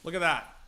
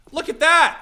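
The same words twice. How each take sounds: First: Said in the usual way. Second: Much higher and louder, thrilled yell; excited shout. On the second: Real, not acted. Streamer to chat as the smoke lands, delighted shout.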